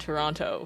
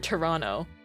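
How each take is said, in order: First: The second T is clearly pronounced. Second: The second T is dropped. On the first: The speaker calls it wrong. "Americans pronounce the heck out of the second T in Toronto" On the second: The speaker calls it right. "pronounced without the second T"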